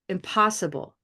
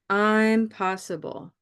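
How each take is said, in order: First: The first syllable is weak; stress falls later. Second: The first syllable is strong, with stress later too. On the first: It means something cannot be done. "I'm going to use a stress there" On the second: It is a play on words saying it can be done. "Lots of stress on both"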